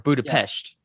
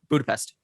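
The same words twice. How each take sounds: First: Budapest is said with an imitated, different pronunciation. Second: Budapest is said in a plain, ordinary way.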